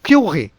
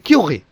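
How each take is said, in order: First: The vowel is kept short. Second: The same.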